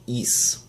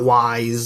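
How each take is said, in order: First: It rhymes with fleece, ending in an s sound. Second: It rhymes with wise, starting with a w sound. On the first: The speaker calls it right. "or more accurately, is, like fleece" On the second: The speaker calls it wrong. "it's not wise"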